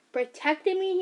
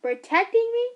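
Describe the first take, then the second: First: Rising, disbelieving echo; incredulous question. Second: Much louder, higher outraged echo; angry repeat. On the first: Son questioning mother's excuse, incredulous. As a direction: throw her word back at her. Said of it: "he said". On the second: Son shouting his mother's excuse back at her. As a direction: hurl it back in disbelief. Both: Acted.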